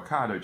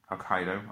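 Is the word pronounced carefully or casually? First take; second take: casually; carefully. First: The word is pronounced casually, without care. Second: The word is pronounced carefully and precisely. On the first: The speaker calls it wrong. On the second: The speaker calls it right.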